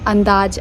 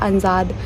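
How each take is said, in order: First: The d sound comes before the z sound. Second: The j sound comes before the d sound. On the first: This is the standard Hindi form of the word. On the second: This is the local Bhojpuri form of the word.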